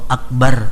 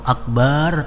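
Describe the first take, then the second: First: The vowel after b is short. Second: The vowel after b is drawn out long. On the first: It means the greatest. The speaker calls it right. "artinya itu maha besar" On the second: It means a drum. The speaker calls it wrong. "kalau akbar artinya gendang"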